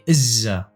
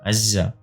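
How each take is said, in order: First: The word begins with an i vowel. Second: The word begins with an a vowel. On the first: This is the speaker's dialect form. "in my dialect I say izza" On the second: This is the standard form with the ain. "there is an ain, so it's azza azza normally"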